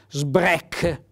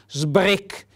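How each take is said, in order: First: The vowel is open. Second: The vowel is closed. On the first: The speaker calls it wrong. "vedete l'accento fonico aperto" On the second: The speaker calls it right. "in dialetto si dice sbrec con l'accento fonico chiuso"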